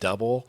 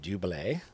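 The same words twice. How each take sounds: First: It sounds like the ordinary English word double. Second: It sounds unlike the ordinary English word double. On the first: This is how many people say the name. The speaker calls it wrong. "a lot of people call them Double" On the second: This is how the name is really said. The speaker calls it right. "It's actually pronounced Double"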